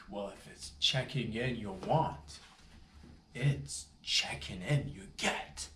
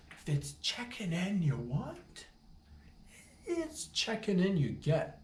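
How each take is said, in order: First: Said in the usual way. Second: Slow, high, drawn-out "checking in" with a rising threat; dramatic repeat. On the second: Retold or imitated. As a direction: lay it on like a movie showdown. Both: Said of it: "is what I told them".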